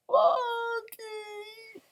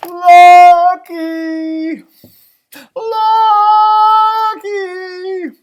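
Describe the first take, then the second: First: Faint, high, whispery call; hoarse calling. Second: Long, high, loud call; drawn-out shout, stretching each syllable. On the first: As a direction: call out with a worn-out voice. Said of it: "until my voice was hoarse". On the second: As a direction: holler for a lost dog. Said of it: "I called Lucky's name". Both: A narrator's reading.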